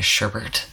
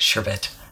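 First: The word has an r sound in both syllables. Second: The word has an r sound only once. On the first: The speaker calls it wrong. "I keep doing two R's in it" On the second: The speaker calls it right. "There we go"

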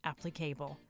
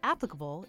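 First: The word is pronounced in a playful, unusual way. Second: The word is pronounced the ordinary way.

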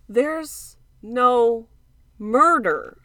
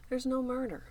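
First: It is said more loudly. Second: It is said at a normal volume.

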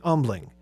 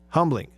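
First: The word begins without any H sound. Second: The word begins with an audible H sound.

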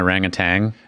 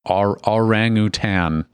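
First: The word ends with a hard g sound. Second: The word ends with an n sound. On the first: The speaker calls it wrong. "I've always said that wrong. I grew up saying orangutan" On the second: The speaker calls it right. "There's no G at the end. It's orangutan"

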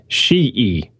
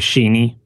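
First: The name has no N sound, ending in vowels. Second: The name has an N sound before the end. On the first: The speaker calls it right. "according to the man himself" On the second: The speaker calls it wrong. "I had been reading the last letter as an N and not an H"

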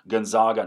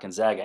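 First: It is said with a Canadian pronunciation. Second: It is said with an American pronunciation. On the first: "that's not how we talk in Canada, so stop giving me grief for saying Gonzaga" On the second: "not Gonzaga"

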